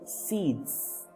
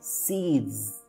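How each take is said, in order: First: The word ends with a voiceless s sound. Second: The word ends with a buzzing z sound. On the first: The speaker calls it wrong. "we don't say seeds" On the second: The speaker calls it right. "we say seeds"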